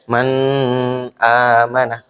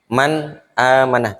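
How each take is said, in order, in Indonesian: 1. Bunyi n ditahan dengan dengung sengau. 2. Bunyi n jelas, tanpa dengung sengau. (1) "tidak dibaca kayak gitu" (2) "Dibaca jelas ... tidak dibaca dengung"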